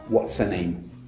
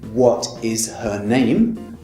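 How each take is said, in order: First: It is contracted, with her reduced to a schwa. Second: Each word is said fully and separately. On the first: "That's the fast pronunciation" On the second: "just in a normal question"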